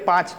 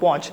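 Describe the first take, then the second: First: The vowel is an open a sound. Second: The vowel is a rounded o sound. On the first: This is the standard pronunciation. "અહીંયા ઓછી માત્રા છે" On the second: This is the dialect pronunciation. "અહીંયા માત્રા વધી ગઈ"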